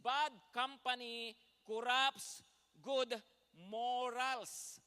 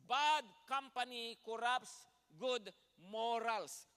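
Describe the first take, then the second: First: Each word hammered slow and loud; slow loud emphasis. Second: Repeated slow and loud, each word stressed; slow loud emphasis again. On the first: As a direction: drive the verse home word by word. (mabagal at malakas na pagdidiin) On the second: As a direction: repeat it slowly, pressing every word. (inulit nang mabagal at malakas) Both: Shown as a demonstration. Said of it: "Sabi po niya ulit sa English".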